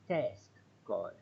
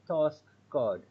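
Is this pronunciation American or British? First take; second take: American; British. First: It is said in an American accent. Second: It is said in a British accent. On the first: "United States of America, they will say task card" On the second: "English people will say task card"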